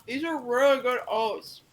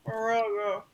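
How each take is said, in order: First: Words round a mouthful; chewing while talking; mouth full. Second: Mouth full. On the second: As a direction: still chewing, mumbled. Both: Acted. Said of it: "To say with a full mouth".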